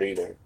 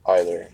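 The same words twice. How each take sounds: First: "either" said as EE-ther. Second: "Either" said as EYE-ther, a bit lower. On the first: Streamer saying the card word, "either" as EE-ther. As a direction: say "either" with an ee sound at the start. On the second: Streamer repeating the word, "Either" as EYE-ther. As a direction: say "Either" with an eye sound at the start. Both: Real, not acted.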